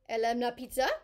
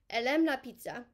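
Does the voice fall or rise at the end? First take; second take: rise; fall. First: The voice rises at the end. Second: The voice falls at the end.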